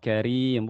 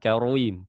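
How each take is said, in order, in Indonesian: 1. Huruf r diucapkan tipis dan ringan. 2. Huruf r diucapkan tebal dan berat. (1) "kalau roknya yang sendiri kasro"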